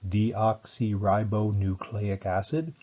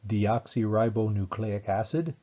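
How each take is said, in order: First: It is said slowly. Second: It is said at normal speed.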